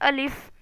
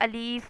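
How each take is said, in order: First: The vowel is said short and quick. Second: The vowel is drawn out long. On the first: The speaker calls it right. "अलिफ को तुरंत बोलना है" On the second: The speaker calls it wrong. "अलीफ को हम खींच के नहीं बोल सकते"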